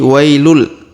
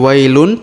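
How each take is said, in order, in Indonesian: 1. Bunyi n menyatu dengan l di akhir. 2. Kata ini berakhir dengan bunyi n yang jelas. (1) "tapi wailul" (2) "bukan lagi wailun"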